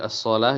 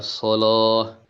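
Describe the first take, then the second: First: The L sound is light and thin. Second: The L sound is heavy and thick.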